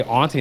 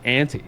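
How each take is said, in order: First: "auntie" with an open AHN first syllable; own pronunciation of auntie. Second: "auntie" with a short A, like "ant"; other pronunciation of auntie. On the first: Quoting a coworker's question about their word, "auntie" said as "AHN-tee". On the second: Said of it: "instead of auntie". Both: Shown as a demonstration.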